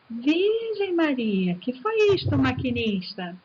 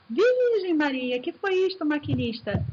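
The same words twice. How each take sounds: First: Poem exclamation. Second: Whistle-like exclamation. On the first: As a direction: cry it out like the train whistle. (exclamação aguda e lenta, como apito) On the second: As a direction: stretch it high like the whistle. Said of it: "pode ser o apito do trem". (exclamação alta e arrastada como apito do trem) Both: Shown as a demonstration.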